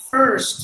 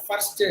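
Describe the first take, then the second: First: "first" with smooth American "er", louder. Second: "first" with the R tapped before the st; Indian-English R. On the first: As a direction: curl the R in "first" without tapping. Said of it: "So that's how they would say". ("first" அமெரிக்க er ஒலியுடன்) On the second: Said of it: "That is how we pronounce the letter R". ("first" Tamil ர் ஒலியுடன்) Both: Shown as a demonstration.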